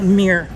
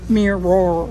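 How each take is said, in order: First: It is said like meer, in a Southern accent. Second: It is said with two syllables, in a standard accent. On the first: "Where I grew up, that's a mirror. Like M E R E or M E E R" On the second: "It's not a mirror"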